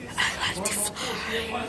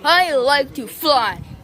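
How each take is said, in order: First: The words are spoken in a whisper. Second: The words are spoken in full voice. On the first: "maybe he could whisper like, um, like this" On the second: "What if he could sound like this?"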